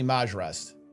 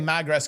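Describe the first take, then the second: First: The name is said with a soft j sound. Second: The name is said with a hard g sound. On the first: The speaker calls it right. "The official pronunciation for Mag Rest is actually Maj Rest" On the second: The speaker calls it wrong. "We do not say Mag Rest correctly"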